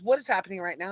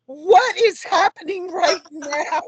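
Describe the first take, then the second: First: Said in the usual way. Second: High, loud, drawn-out mock freak-out. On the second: Young woman hears both dads share a name, freaking out. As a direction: act out overwhelmed disbelief, slow and high with a laugh. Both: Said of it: "like, freaking out".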